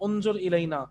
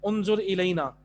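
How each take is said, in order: The two takes are said the same way.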